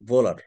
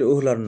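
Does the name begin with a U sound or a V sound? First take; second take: V sound; U sound. First: The name begins with a 'v' consonant sound. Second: The name begins with an 'oo' vowel sound. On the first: The speaker calls it right. "উচ্চারণটা হচ্ছে Friedrich Friedrich ভোলার ভোলার ভোলার" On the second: The speaker calls it wrong. "আসলে উহলার না"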